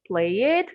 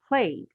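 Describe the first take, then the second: First: The ending is said as an extra syllable. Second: The ending adds no extra syllable. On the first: The speaker calls it wrong. "don't say played" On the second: The speaker calls it right. "we say played"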